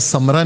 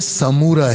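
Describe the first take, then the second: First: The vowel after the m is dropped. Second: A long u vowel follows the m. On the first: The speaker calls it wrong. "हालांकि समरा नहीं है" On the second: The speaker calls it right. "बल्कि समूरा है"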